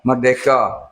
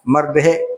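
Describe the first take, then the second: First: The word ends with a 'ka' sound. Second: The word ends with a 'hek' sound. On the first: The speaker calls it right. "Dia tulis merdeka" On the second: The speaker calls it wrong. "Bukan merdehek tu"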